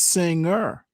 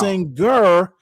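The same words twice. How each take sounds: First: It has no hard G after the ng. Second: It has a hard G after the ng. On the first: The speaker calls it right. "it's singer" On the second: The speaker calls it wrong. "you don't pronounce that hard G in singer. It's not"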